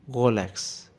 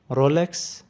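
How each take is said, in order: First: "Rolex" with a throaty, G-like French R, falling; Swiss French pronunciation. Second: "Rolex" with an American R, rising at the end; American pronunciation. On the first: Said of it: "with a typical Swiss French pronunciation". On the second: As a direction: model "Rolex" the American way, voice lifting. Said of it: "the correct pronunciation is Rolex in American". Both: Shown as a demonstration.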